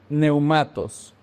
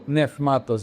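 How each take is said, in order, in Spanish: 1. La primera sílaba termina en un deslizamiento vocálico, 'neu'. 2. La primera sílaba termina en un sonido de 'f', 'nef'.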